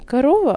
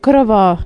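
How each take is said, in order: First: The stress falls before the last syllable. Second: The stress falls on the last syllable. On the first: The speaker calls it wrong. "не корова" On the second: The speaker calls it right. "ударение всегда падает, в основном всегда падает на последний слог"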